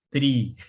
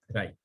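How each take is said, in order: First: The word rhymes with 'see'. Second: The word rhymes with 'sky'. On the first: It follows the sound of 'retrieval'. "se pronuncia tri" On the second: It avoids confusion with the word for trees. "acá le voy a decir try solamente para no confundirlo con los árboles"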